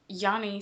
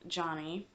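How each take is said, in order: First: The name begins with a Y sound. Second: The name begins with a J sound. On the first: The speaker calls it wrong. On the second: The speaker calls it right.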